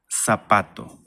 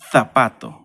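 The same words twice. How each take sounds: First: It begins with an s sound. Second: It begins with a th sound. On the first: "But in Latin America, zapato" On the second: "So in Spain, this will be zapato"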